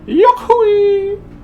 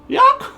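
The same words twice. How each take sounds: First: It is said in his normal voice. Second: It is said in a goofy Goofy voice.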